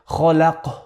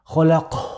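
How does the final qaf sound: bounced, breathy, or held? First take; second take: breathy; breathy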